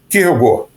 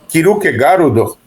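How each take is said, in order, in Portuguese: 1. É dito com pronúncia nativa dinamarquesa. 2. É dito com vogais extras, ao estilo japonês. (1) "o nome mesmo dele em dinamarquês é" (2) "no Japão o pessoal chama de"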